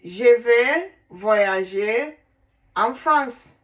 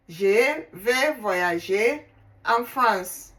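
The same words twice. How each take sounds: First: "je vais voyager en France" said slowly and deliberately, each word given its French sounds; careful French. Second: Said in the usual way. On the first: Shown as a demonstration. Teacher modelling the French sentence for learners, slow and careful. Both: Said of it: "Then in French language".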